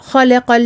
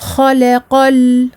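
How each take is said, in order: First: The final l is passed over too quickly. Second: The final l is held for a moderate time. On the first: The speaker calls it wrong. "et ne pas faire" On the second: The speaker calls it right. "donner son temps intermédiaire, un temps moyen"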